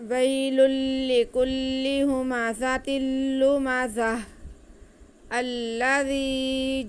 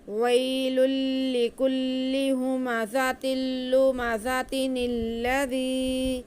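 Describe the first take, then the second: First: A pause follows 'lumazah', with no n sound. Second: No pause; the words run together with an n sound. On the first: "अगर वक्फ करेंगे तो नून नहीं पढ़ा जाएगा" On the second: "अगर हम वक्फ नहीं करते तो कैसे पढ़ेंगे? ... फिर हमारा नून पढ़ा जाएगा।"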